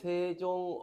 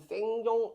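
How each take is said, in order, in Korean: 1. 첫 음절에 ng 받침이 없다. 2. ng 소리가 첫 음절의 받침이다. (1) "근데 읽을 때는 세종 어제 이래 있거든" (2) "적혀 있는 게 보면 지금 생종, 엉쟁 막 이래 있잖아"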